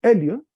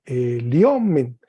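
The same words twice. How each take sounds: First: "elion" punched on the opening E; stress on first syllable. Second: "eliomen" with the weight on the O; stress moved later. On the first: Teacher recalls previous form, stress on E in "elion". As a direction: hit the E of "elion". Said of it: "en el anterior era". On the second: Teacher contrasts new form, stress on O in "eliomen". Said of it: "El acento agudo caminó". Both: Shown as a demonstration.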